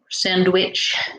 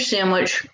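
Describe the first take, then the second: First: The word is carefully and clearly enunciated. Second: The word is slurred and not fully articulated. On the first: The speaker calls it right. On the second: The speaker calls it wrong.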